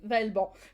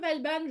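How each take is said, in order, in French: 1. La dernière syllabe 'ban' a un son français. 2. La dernière syllabe 'ban' a un son anglais. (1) "je pense que c'est Vaelban" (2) "ban à l'anglaise"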